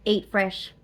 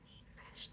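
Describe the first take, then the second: First: Punchy advert tagline, louder; ad slogan. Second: Breathy whispered slogan; whispering. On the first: Shown as a demonstration. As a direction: sell it like a commercial. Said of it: "Sounds like a Subway advert". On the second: Real, not acted. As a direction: hush it like a secret.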